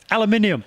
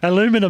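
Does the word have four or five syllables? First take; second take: five; four. First: The word is said with five syllables. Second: The word is said with four syllables. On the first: This is the British way of saying it. The speaker calls it right. "you're missing some letters there" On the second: This is the American way of saying it. The speaker calls it wrong. "you guys say aluminium funny"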